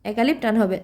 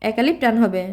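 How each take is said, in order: Both takes have the same delivery.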